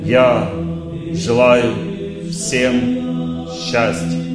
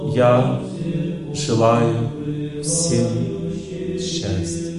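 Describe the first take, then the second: First: It is said calmly, from reason. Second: It is said in a detached, thinking way.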